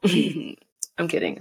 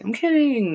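First: Chuckling through it, slowly; laughing. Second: Higher playful insistence; sing-song to sell the joke. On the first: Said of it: "laughing takeback". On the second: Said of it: "repeat of takeback". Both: Real, not acted.

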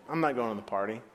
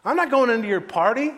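First: Low, quiet sulk; understated angry refusal; sullen anger. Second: High, loud angry refusal; acted outraged outburst; sudden anger. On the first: Acted. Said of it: "The older brother became angry". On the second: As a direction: refuse at full indignant volume. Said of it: "All of a sudden he was angry".

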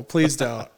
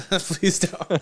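First: Said in the usual way. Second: Pleading "Please don't" through a laugh, a bit higher. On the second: Real, not acted. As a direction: giggle while begging them to stop. Begging again through laughter.

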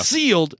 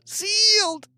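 First: Said in the usual way. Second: "sealed" squeaked out in a much higher pitch; squeaky high. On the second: Pretend. Repeats word, second squeaked.

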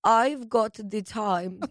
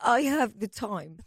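First: Put-on slow, clipped German accent. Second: German English accent attempt; a hammy stab at a German accent. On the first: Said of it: "how do you do a German accent". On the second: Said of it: "It's like a German English accent".

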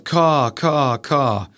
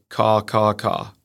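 First: Three drawn-out crow caws, lightly done; American crow caw. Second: Stuffy-nosed fish crow. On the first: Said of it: "with American crow". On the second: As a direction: crow caws through a plugged nose. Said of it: "sounds like its nose is plugged". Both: Shown as a demonstration.

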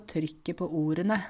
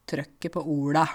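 First: Neat Oslo pronunciation of TRYKKET PÅ ORDENE; Oslo speech. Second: Broad rural Norwegian TRØKKET PÅ ORDA; rougher, broader home dialect. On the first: Teacher showing how they talk in Oslo, Oslo accent. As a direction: say it in standard Oslo Norwegian. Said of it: "sånn som jeg snakker i Oslo". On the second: Teacher contrasting with Oslo speech, broad rural dialect. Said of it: "Du hører at det er mye breiere". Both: Shown as a demonstration.

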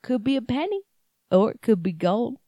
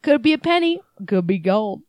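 First: Put-on thick Southern accent. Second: Put-on Southern accent. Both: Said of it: "in a thick Southern accent".

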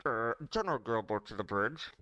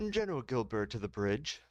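First: Tinny ship intercom announcement; muffled PA voice. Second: Plain PA call. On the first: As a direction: hand over mouth like a loudspeaker. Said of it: "put my hand over my mouth". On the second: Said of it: "do that with some cool special effects". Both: Acted.

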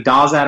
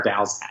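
First: "Dawsat" with an AW first vowel; pronounced DAW-zat. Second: "Dowsat" with an OW first vowel; pronounced DOW-zat. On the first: Co-host offers a surname reading, "Dawsat" with an AW vowel. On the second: Co-host offers another surname reading, "Dowsat" with an OW vowel. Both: Shown as a demonstration. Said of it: "how would you pronounce this".

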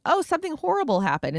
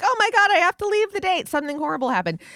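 First: Higher, overdone fake alarm; hammed-up friend faking a crisis; mock dramatic excuse. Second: Higher and louder mock alarm; hammed-up fake panic to escape a date. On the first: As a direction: pretend the bad date is an emergency. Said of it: "by saying". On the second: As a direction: burst out like it's an emergency. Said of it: "And then you're like".

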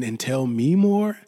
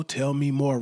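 First: "more" stretched, louder and slower; emphatic repeat. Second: Said in the usual way. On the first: Shown as a demonstration. Host urging listeners to share their story, emphatic. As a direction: lean into "more" and draw it out.

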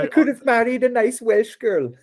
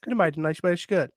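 First: Laughing high mock Welsh lilt; mock Welsh accent. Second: A hint of a Welsh lilt, softer and quick; Welsh accent. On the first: Laughing at the quote, a bad mock Welsh accent. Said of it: "The Welsh accent is something I will never be able to master". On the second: Echoing his own quote, softly in a Welsh accent. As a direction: lightly repeat it in Welsh accent. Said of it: "I'll do the accent".

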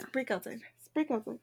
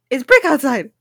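First: Very soft, repeating it to oneself; musing quietly. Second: Repeated at a firmer, fuller volume; puzzling aloud. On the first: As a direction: murmur it while puzzling it out. Puzzling over the clue to herself. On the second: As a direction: say it out loud to work it out. Repeats the clue louder, puzzling. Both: Real, not acted.

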